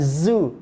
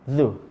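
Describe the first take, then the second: First: It starts with a buzzing z sound. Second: It starts with a soft dh sound. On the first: The speaker calls it wrong. "bukan zu" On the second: The speaker calls it right. "ini za"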